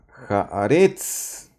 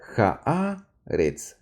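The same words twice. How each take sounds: First: The stress falls on the last syllable. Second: The stress falls on the middle syllable. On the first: The speaker calls it wrong. "con el acento al final, pero no es así" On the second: The speaker calls it right. "el acento está debajo de Aleph... la A... entonces se lee haaretz"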